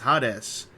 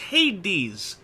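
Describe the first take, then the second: First: It is pronounced the Japanese katakana way. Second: It is pronounced the usual English way. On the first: "I've heard this before in Japanese entertainment" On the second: "they're trained to go like, "Oh, hey, it's Hades.""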